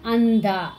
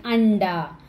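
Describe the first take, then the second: First: Anda with tongue on the teeth for n and d; dental Anda. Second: Anda with tongue curled back for n and d; teacher's demonstration of hard, retroflex Anda. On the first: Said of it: "With this is Ta". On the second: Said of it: "Na pronunciation". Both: Shown as a demonstration.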